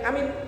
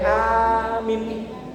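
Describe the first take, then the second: First: Both the first and second vowels are short. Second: The first vowel is long, the second short. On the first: "dua-duanya pendek" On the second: "A-nya panjang, M-nya pendek"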